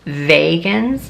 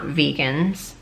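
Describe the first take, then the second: First: The word begins like the star name Vega. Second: The word does not begin like Vega. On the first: The speaker calls it right. "I'm pretty sure they're pronounced vegans, since they're from Vega" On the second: The speaker calls it wrong. "not vegans"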